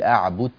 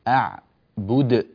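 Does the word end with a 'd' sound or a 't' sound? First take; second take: t; d. First: The word ends with a t sound. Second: The word ends with a d sound. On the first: The speaker calls it wrong. "لا تقول أعبد بت" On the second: The speaker calls it right. "أعبد بد بالدال هكذا"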